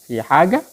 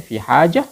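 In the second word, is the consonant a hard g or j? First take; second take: hard g; j. First: The second word has a hard g sound. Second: The second word has a j sound. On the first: This is the Egyptian way of saying it. "kalau Mesir fi haga" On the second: This is the Saudi way of saying it. "Kalau Saudi fi haja"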